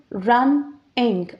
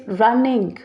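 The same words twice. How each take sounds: First: "Running" in two separate beats, run, ning; split into syllables. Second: Said in the usual way. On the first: Shown as a demonstration. Teacher counting syllables for learners, "Running" split run-ning. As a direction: break "Running" in the middle with a short pause. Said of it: "two vowels". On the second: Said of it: "that have two syllables".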